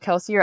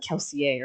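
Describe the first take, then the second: First: The name is said with plain English sounds. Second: The name is said with French-style sounds. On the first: "I thought it was also Kelsier" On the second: "or it could also be like French"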